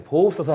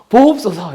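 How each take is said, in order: First: Said in the usual way. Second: "보옵소서" cried out loud and high, falling; loud pleading cry. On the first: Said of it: "하잖아요". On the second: Shown as a demonstration. Preacher cries "보옵소서" aloud to the congregation. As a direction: call "보옵소서" out like a desperate prayer. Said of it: "이렇게".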